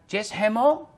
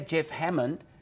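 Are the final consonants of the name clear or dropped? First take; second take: dropped; clear. First: The final consonants are changed or dropped. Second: The final consonants are clearly pronounced. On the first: The speaker calls it wrong. "mereka tidak bisa mengucapkan dengan benar nama saya" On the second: The speaker calls it right. "ya nama saya Jeff Hammond"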